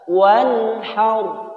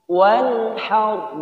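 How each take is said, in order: The two takes are said the same way.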